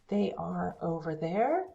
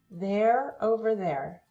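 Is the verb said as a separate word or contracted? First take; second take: separate; contracted. First: The verb is a separate full syllable. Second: The verb is joined to the pronoun. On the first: "the long forms" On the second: "the shorter forms"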